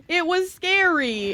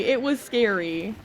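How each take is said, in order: First: A hammed-up wail of fright, higher and slower; mock-dramatic high, slow cry of fright. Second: Said in the usual way. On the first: Retelling the fight, said twice.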